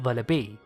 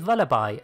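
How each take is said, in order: First: The name does not end like lullaby. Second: The name ends like the word lullaby. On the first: The speaker calls it wrong. "and not Vullaby" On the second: The speaker calls it right. "its correct pronunciation is Vullaby"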